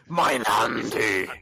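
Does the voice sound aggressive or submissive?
aggressive. It is said harshly and forcefully. "Or there's the very aggressive one of"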